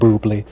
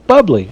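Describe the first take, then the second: First: The first syllable sounds like 'boo'. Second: The first syllable sounds like 'bub'. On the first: A joking pronunciation taken from a commercial. "I will never pronounce it as anything other than boobly" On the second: The ordinary pronunciation other people insist on. "people are like, but it's bubbly"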